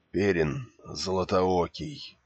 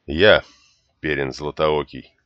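First: Slow, breathless and hoarse; each word gasped out, dying; gasping for breath. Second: Reluctant. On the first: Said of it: "задыхаясь, прохрипел раненый". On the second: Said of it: "неохотно произнёс юноша". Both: Acted.

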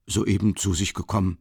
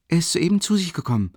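First: A faint smile in the voice, lightly voiced clerk. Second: Higher, lightly voiced young maid; a simple servant girl stating it plainly; Nastassja's voice. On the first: Office clerk confirming politely, mild smile. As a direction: confirm it pleasantly, barely smiling. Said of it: "bestätigte wieder der Kontordiener mit einem Lächeln". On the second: Maid telling the visitor he just woke, higher voice.

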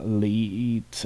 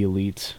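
First: "Elite" drawn out on the LEE; alternative pronunciation. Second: Said in the usual way. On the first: Shown as a demonstration. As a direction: say "Elite" slowly as if it had the name Lee in it. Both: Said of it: "I don't know how to pronounce it".

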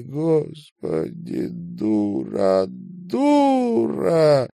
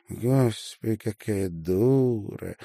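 First: Slow, rising into a high sobbing cry; sobbing self-reproach. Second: Mocking smirk. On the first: Acted. Marina weeping alone into the pillow, slow and breaking high. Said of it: "Марина заплакала". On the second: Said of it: "усмехнулась Марина".

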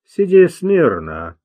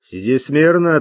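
First: Медленно и твёрдо, без нажима; спокойно приказать прижатому к земле; спокойный приказ. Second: Said in the usual way. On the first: A narrator's reading. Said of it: "спокойно приказал он". (спокойная властная команда) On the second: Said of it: "сказал Луи".

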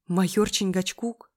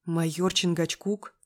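First: Slow, louder echo question. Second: Slow, astonished question; gasped surprise. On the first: Acted. Narrator quizzes friend about the nickname, questioning. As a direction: repeat the name back, probing. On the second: A narrator's reading. Friend spots the cop in the café, astonished. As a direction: draw the name out in mild disbelief. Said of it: "ахнула".

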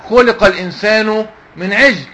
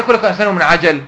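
First: عجل with silent jim, "ʿijl"; mistaken reading. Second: عجل with two open vowels, "ʿajal"; correct reading. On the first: Teacher quoting a faulty reciter to students, mistaken reading. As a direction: misread عجل as one closed syllable, "ʿijl". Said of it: "إن واحد، آه، يقول مثلًا". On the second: Teacher explaining the verse's true meaning, correct reading. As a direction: say عجل as "ʿa-jal", both short a. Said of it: "أدي معنى الكلام". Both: Shown as a demonstration.

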